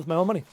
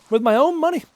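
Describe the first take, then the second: First: Said in the usual way. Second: "own" pushed up high for emphasis; stress on OWN. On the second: Real, not acted. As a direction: hammer home "own" in a raised pitch. Emphatic repeat of purchase point.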